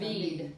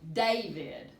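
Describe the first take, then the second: First: The stress is on the last syllable. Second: The stress is on the first syllable.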